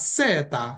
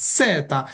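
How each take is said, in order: No difference in how they are said.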